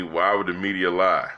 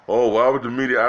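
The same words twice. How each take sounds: First: Said in the usual way. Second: Slightly higher, louder mock-naive "why would the media"; mock naive question. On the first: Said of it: "had a friend of mine ask me". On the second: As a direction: imitate a gullible friend, a bit up and louder. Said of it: "They think".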